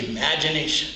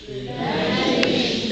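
First: Said in the usual way. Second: Slow hushed Imagination; slow demo. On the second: Shown as a demonstration. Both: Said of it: "and say".

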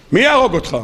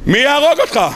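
First: Said in the usual way. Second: Higher, more forceful יהרוג; insistent repeated question. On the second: Acted. Lecturer challenging someone afraid of the king, insistent יהרוג. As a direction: push יהרוג up in disbelief.

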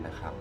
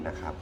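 The two takes are said the same way.

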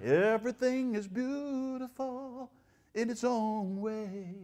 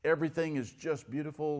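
First: High, slow, sugary singsong; mocking the flowery preachers with a sweet lilt; mock flowery sweetness. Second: Said in the usual way. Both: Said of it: "there are guys who are flowery".

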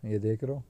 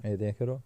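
The two takes are said the same way.

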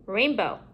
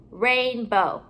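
First: Said in the usual way. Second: RAINBOW with a gap between "rain" and "bow"; two separate parts. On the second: Shown as a demonstration. Teacher building compound words for pupils, halves kept apart.

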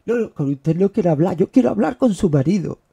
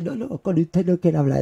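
First: Much louder hammed-up caller; imitating caller. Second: Louder mock caller brush-off; imitating caller. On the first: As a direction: bark the caller's demand, hammed up. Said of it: "me ha pasado más veces". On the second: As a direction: ham up the rude caller. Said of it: "Y dice".

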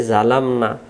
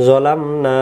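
First: জালামনা with a long open za; wrong Zalamna. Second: জলামনা with a short zo, no stretch; correct Zolamna. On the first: Teacher showing viewers the mistaken long za. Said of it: "এটা জা না". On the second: Teacher giving viewers the short zo, no pull. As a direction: say জলামনা, short zo without drawing it out. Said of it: "এটা হলো জ". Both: Shown as a demonstration.

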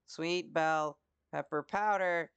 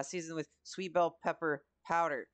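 First: 'sweet bell pepper powder' read very slowly, each word spaced out; slow careful reading. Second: Said in the usual way. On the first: Shown as a demonstration. Reading a recipe step aloud, slow and careful. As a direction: spell out the ingredient slowly, word by word. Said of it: "Sweet, s". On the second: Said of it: "sweet, sweet bell pepper powder".

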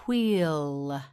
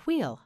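First: "wheel" with a long stretched vowel; drawn out. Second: Said in the usual way. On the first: Shown as a demonstration. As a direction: hold the ee in "wheel". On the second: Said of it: "Yes, again".

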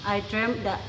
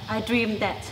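No difference in how they are said.

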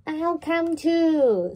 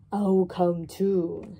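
First: High, loud and slow; eager duck. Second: Lightly voiced rooster. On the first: Acted. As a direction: quack it keenly like a little duck. Duck voiced in children's story. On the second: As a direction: say it steadily like a plain old rooster. Rooster voiced in children's story.

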